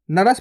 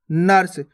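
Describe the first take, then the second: First: नरस in two syllables, "na-ras"; wrong full R. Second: नर्स as one syllable, "nars"; no vowel between r and s in नर्स; half R. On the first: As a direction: sound a whole "ra" inside नरस. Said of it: "पूरा रा लग जाएगा". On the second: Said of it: "इसको कैसे पढ़ते अपन". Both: Shown as a demonstration.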